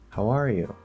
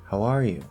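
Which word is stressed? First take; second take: are; are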